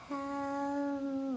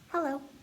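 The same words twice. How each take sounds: First: It is said very slowly. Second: It is said very fast.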